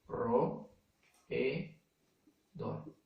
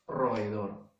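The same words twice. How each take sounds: First: "ro, e, do" in three separate beats, long pauses between; syllable by syllable. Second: Said in the usual way. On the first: Shown as a demonstration. Teacher showing niños the silabeo, syllable by syllable. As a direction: split it slowly as "ro", "e", "do". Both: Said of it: "el silabeo, ¿no?".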